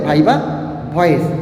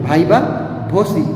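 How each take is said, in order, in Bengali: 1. দ্বিতীয় শব্দটি 'voice' এভাবে উচ্চারিত হয়। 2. দ্বিতীয় শব্দটি 'vosi' এভাবে উচ্চারিত হয়। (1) "অনেকে কি বলে ভাইবা ভয়েস, এটা বলা যাবে না" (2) "সেটার নাম আছে কি ভাইবা ভসি"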